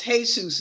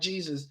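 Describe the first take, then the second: First: The name is pronounced the Spanish way. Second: The name is pronounced the English way. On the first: The speaker calls it right. "it's Jesus in in Spanish. It's Jesus" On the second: The speaker calls it wrong. "not Jesus"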